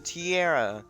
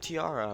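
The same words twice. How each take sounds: First: The word is pronounced in an odd, joking way. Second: The word is pronounced in the ordinary way. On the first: The speaker calls it wrong. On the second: The speaker calls it right.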